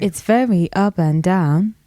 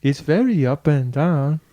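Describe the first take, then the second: First: Melodic Yoruba accent, up and down. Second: Imperfect copy of Yoruba lilt; tentative, slower Yoruba attempt; attempted Yoruba accent. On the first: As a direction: demonstrate the tonal Yoruba lilt. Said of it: "Give us an example". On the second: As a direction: slowly imitate a Yoruba accent. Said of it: "Kind of". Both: Shown as a demonstration.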